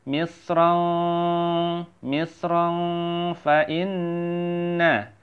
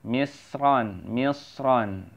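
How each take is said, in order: First: "misron" chanted higher, its n turned into a long nasal ng; held nasal "misron", long n in "inna"; ikhfa. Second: "misron" said alone, ending in a plain n; careful unjoined "misron"; clear n ending. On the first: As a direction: hum the end of "misron" before gliding to "fa inna". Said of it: "menjadikan dia hurufnya ikhfa". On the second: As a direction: close each "misron" on a clear n, no hum. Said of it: "jangan misron lagi". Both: Shown as a demonstration.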